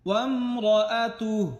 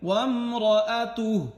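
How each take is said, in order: No difference in how they are said.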